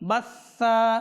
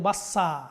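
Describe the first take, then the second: First: The middle consonant is a th sound. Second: The middle consonant is an s sound. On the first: The speaker calls it right. "এখানে সা তা সা সা রয়েছে" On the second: The speaker calls it wrong. "এখানে সিন নিয়ে আসি আমরা"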